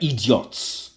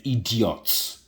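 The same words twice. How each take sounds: First: Put-on Nigerian accent again, dismissive; Nigerian-accented "Idiots" with a falling sneer. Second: Put-on dad's Nigerian accent, dismissive. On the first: Echoing his dad's Nigerian-accented scorn. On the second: Imitating his Nigerian dad scorning fools, Nigerian accent. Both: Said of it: "my dad used to say in his Nigerian accent".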